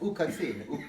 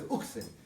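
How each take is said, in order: First: The word is said in three syllables. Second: The word is said in two syllables. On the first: The speaker calls it right. "but it's Ukatzin" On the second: The speaker calls it wrong. "Everyone says Uksin"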